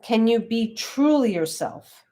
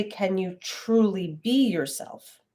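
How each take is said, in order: First: "truly" drawn out and lifted in pitch; slow down and lean on "truly"; stress on TRULY. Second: Slow, with the weight on "be"; stress on BE. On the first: Teacher quoting the correct word order, stress on "truly". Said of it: "The syntax there is really important". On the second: Teacher quoting the wrong word order, stress on "be". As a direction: lean on "be" after "truly". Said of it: "It doesn't say". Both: Shown as a demonstration.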